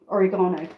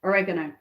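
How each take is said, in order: First: Oregano said British way, or-ih-GAH-no with stress on GA; British pronunciation. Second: Oregano said American way, uh-REG-uh-no with stress on REG; American pronunciation. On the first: Vlogger giving the British oregano before the American one, or-ih-GAH-no. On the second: Vlogger mimicking how Americans say oregano, uh-REG-uh-no. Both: Shown as a demonstration. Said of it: "or Americans, oregano".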